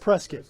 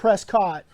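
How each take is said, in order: First: The name is said the residents' way. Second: The name is said the visitors' way. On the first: This is how people who live there say it. The speaker calls it right. "you guys call it Prescott" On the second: This is how visitors to the town say it. The speaker calls it wrong. "out of towners call it Prescott"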